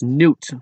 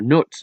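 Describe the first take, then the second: First: The vowel sounds like the oo in boot. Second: The vowel sounds like the u in foot. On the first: "so many English people speaking countries pronounce my name as Newt" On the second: "or Nut"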